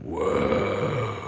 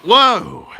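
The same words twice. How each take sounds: First: Low, soft, drawn-out whoa; hammed-up quiet awe; mock awe. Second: Higher, louder whoa; hammed-up surprised whoa; mock amazement. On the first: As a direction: let out a hushed low whoa. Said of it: "And then I was like". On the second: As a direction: react big with a punchy high whoa. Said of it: "And then you were like".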